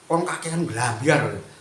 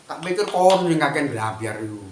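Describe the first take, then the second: First: Slow, sneering jab, retold lightly; slow jeering "kon kakean blambyar" from an online commenter; mocking commenter. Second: Retort. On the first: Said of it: "mesti komentarnya itu". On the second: Real, not acted. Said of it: "Tak jawab itu".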